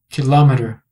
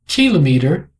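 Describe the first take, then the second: First: The stress is on the second syllable. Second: The stress is on the first syllable. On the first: "na sílaba L" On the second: "com a força na primeira sílaba"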